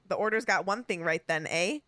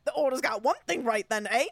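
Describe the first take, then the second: First: It is read in a plain voice. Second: It is read with a wheezy, giggly, Goofy-like voice.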